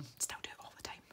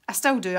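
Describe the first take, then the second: First: Quick whispered admission; hushed confession. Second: Said in the usual way. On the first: Real, not acted. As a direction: whisper it fast, under your breath. Same admission repeated under breath.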